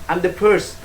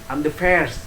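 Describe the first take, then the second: No difference in how they are said.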